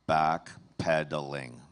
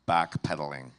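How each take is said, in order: First: The word is said slowly and drawn out. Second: The word is said at a normal pace.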